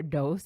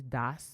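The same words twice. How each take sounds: First: "dos" said with a long o, like "dose"; DOS, alternative pronunciation. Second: "dos" said as one short word, rhyming with boss; DOS, one pronunciation. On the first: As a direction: say "dos" to rhyme with gross. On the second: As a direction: say "dos" like "doss". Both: Shown as a demonstration. However you say it.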